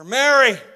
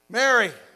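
First: The name is called loudly. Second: The name is called quietly.

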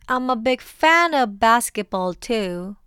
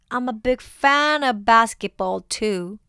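The two takes are said the same way.

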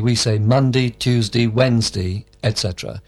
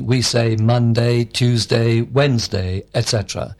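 First: It is said quickly and reduced. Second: It is said slowly and carefully.

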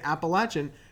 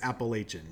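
First: It is said the Southern way. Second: It is said the Pennsylvania, Northern way.

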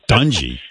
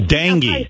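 First: The first syllable sounds like 'dung'. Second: The first syllable sounds like 'den'. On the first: The speaker calls it wrong. "I knew I was going to say it wrong" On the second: The speaker calls it right. "You mean dengue fever"

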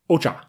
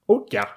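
First: The middle consonant sounds like ch. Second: The middle consonant sounds like ty. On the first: This is close to the Japanese pronunciation. "Pretty close to Japanese" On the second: This is how an English speaker would read the spelling. "Is how an English speaker would probably pronounce it if they saw it"

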